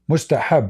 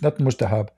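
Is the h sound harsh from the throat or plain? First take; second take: harsh; plain. First: The h is a harsh throat sound. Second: The h is a plain soft sound. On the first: The speaker calls it right. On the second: The speaker calls it wrong.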